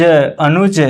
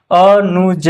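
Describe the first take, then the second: First: Said in the usual way. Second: "अनुज" stretched into separate syllables. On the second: Shown as a demonstration. Teacher spelling out an example, "अनुज" slow and split. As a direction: sound out "अनुज" piece by piece.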